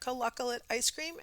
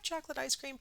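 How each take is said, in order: First: The word begins with a 'k' sound, extra syllables. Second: The word begins with a 'ch' sound, three syllables. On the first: The speaker calls it wrong. "called chocolate coloccolate" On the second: The speaker calls it right. "it's not coloccolate"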